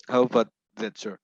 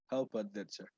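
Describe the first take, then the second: First: Louder, projected question; speaking up. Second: Soft, barely audible question. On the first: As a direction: ask it out loud and clear. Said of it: "can you repeat that?". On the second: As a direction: ask it almost too quietly to hear. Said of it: "Your voice is very low". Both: Real, not acted.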